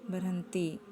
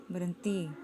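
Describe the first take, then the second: Both takes have the same delivery.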